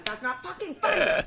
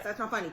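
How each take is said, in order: First: Higher and louder laughing protest; laughing outburst. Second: Said in the usual way. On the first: Real, not acted. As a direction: blurt it out, half laughing. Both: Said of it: "That's not funny, guys".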